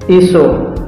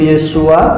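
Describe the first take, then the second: First: The name ends in an o vowel sound. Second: The name ends in an a vowel sound. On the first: This is the Eastern Aramaic reading. "Aram timur itu Iso" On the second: This is the Hebrew reading. "Ibraninya itu Yesua"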